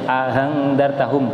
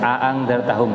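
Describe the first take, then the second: First: The second glottal stop is softened toward an h. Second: The second glottal stop is fully pronounced. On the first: "dibaca tashil yang kedua ... antara hamzah dan ha" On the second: "hamzahnya tetap dibaca hamzah, berarti tahqiq"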